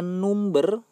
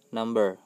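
First: It is read as spelled, letter by letter. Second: It is pronounced the usual English way. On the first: "Tulisannya number" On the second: "tapi kalau dibaca adalah number"

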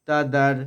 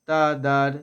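The two takes are said the same way.

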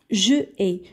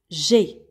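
First: The vowel of je is pronounced separately. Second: The vowel of je is dropped entirely. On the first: The speaker calls it wrong. "Je ai, ça ne se dit pas en français. C'est un peu lourd à prononcer" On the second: The speaker calls it right. "On va enlever le E et on va mettre l'apostrophe"

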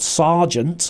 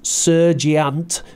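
First: The first vowel sounds like the 'ar' in 'car'. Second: The first vowel sounds like the 'er' in 'her'. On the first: The speaker calls it right. "but sergeant" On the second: The speaker calls it wrong. "not sergeant"

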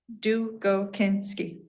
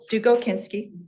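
First: The name is said slowly, syllable by syllable. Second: The name is said at normal speed.

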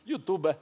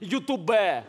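First: The stress falls before the last syllable. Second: The stress falls on the last syllable. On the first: The speaker calls it wrong. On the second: The speaker calls it right.

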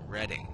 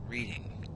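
First: The first syllable sounds like 'red'. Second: The first syllable sounds like 'reed'. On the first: The speaker calls it right. "It's pronounced Reading, ... Red. Read a book with an ing on the end. Red ing" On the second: The speaker calls it wrong. "not Reading"

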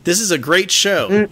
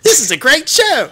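First: It is said in an American accent. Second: It is said in a British accent. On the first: The speaker calls it wrong. "This doesn't sound like it's coming from the UK" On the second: The speaker calls it right. "with a little UK flair"

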